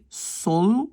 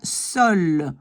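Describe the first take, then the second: First: The O is said with the jaw dropped open. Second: The O is said with a tense mouth. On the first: This is the Dutch sound. "on laisse tomber la mâchoire inférieure" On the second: This is the French sound. "La bouche est beaucoup plus tendue"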